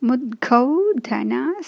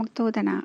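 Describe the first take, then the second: First: The word begins with the sounds 'mudg'. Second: The word begins with the sounds 'mukt'. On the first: The speaker calls it right. "முத்கௌதனா சக்த சித்தா அப்படின்னு நம்ம படிக்கணும்" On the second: The speaker calls it wrong. "நம்ம வேகமாக படிக்கும் போது எப்படி படிப்போம் அப்படின்னா"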